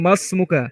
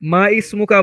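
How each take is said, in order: First: The words run together, with the 'i' dropped. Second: The words are separated, with the 'i' sound kept. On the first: The speaker calls it right. "বলবো মাসমুকা। মিমটা সরাসরি সিনকে ধরবে।" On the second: The speaker calls it wrong. "মা ইসমুকা বলবো না"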